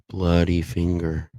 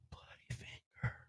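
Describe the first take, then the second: First: It is said noticeably louder. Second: It is said faintly and quietly.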